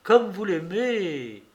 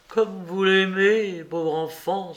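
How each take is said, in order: First: "comme" stressed first, slow and falling; slow repeat, weight moved onto "comme"; echoing lament with "comme" hit hardest; pitying cry. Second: "l'aimez" leaned on, slow and falling; slow sorrowful exclamation with weight on "l'aimez"; an old judge's gentle lament, "l'aimez" stressed; pitying cry. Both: A narrator's reading. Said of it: "s'écria-t-il".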